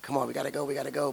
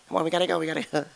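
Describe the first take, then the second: First: It is said in an ordinary speaking voice. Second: It is said in a small, tiny voice.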